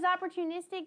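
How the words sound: The word sounds sincere and grateful. The day brought welcome chances to grow. The speaker calls it right. "instead of being like, you know what, it was opportunistic, like God's helping me"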